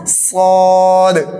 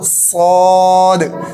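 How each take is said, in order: The two takes are said the same way.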